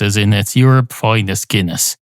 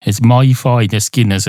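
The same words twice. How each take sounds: First: YOUR picked out in "your finest Guinness"; stress on YOUR. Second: MY picked out in "my finest Guinness"; stress on MY. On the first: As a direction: lean on the word your. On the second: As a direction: lean on the word my. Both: Acted. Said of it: "From your point of view".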